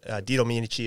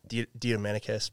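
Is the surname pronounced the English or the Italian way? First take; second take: Italian; English. First: The surname is said with an Italian pronunciation. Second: The surname is said with an English pronunciation.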